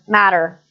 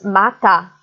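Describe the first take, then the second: First: The word is said in an American accent. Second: The word is said in an African English accent. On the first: "American English is different, again" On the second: "becomes mata, more or less, for African English varieties"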